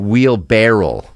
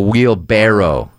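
First: The word ends with the sound barrel. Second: The word ends with the sound barrow. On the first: The speaker calls it wrong. "Oh, barrel, yeah" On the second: The speaker calls it right. "Instead of a wheelbarrow"

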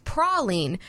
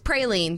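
First: It is said the way common in Louisiana. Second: It is said the way common in Georgia. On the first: "That's what you're most likely to hear in Louisiana and around the Gulf Coast" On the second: "That's a favorite pronunciation, like you just heard her say, in mm-hmm. Georgia and the surrounding states"

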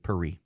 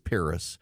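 First: It is said with a French pronunciation. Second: It is said with an English pronunciation. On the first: This is how a native of the place says the name. "He is not a Frenchman, so he does not say Paris" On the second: The speaker keeps his own native form of the name. "he is an Englishman and he says Paris"

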